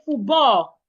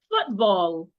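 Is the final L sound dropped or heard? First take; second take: dropped; heard. First: The final L sound is dropped. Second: The final L sound is clearly heard. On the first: The speaker calls it wrong. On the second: The speaker calls it right.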